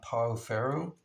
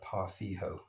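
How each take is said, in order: First: It is said with an American English pronunciation. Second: It is said with a Brazilian Portuguese pronunciation. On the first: This is what people in the States call it. "We would call it uh" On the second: This is how a speaker from Brazil says it. "he said it's pronounced uh"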